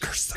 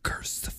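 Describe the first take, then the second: First: It is said in a normal voice. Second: It is said in a very deep voice.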